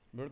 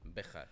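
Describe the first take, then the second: First: The name has no strong throaty j sound. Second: The name has a strong throaty j sound. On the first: The speaker calls it wrong. "sounds for Spaniards so bad" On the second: The speaker calls it right. "with a strong J"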